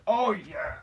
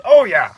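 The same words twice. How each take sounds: First: Higher, held-back realisation; mock remembering. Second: High, loud burst of realisation; hammed-up loud afterthought; mock sudden remembering. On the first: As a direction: let it dawn on you, pitched up. First take of elf's sudden remembering. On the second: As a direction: blurt it out loudly. Louder retake of elf's remembering.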